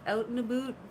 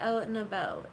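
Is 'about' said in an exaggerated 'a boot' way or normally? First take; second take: exaggerated; normal. First: About is stretched to sound like 'a boot'. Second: About is said in a plain, ordinary way. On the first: It mimics the stereotype of how Canadians supposedly say it. "do you want me to say out and about? A boot?" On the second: This is how the speaker usually says it. "I would normally say out and about"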